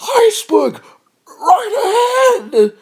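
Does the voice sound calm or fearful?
fearful. It is said fearfully, sounding petrified. The speaker calls it right. "more fearful, like iceberg right ahead. That's like petrified"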